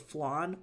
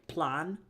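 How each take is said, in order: First: The word begins with an F sound. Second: The word begins with a P sound. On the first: "like for flan" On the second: "things like plan"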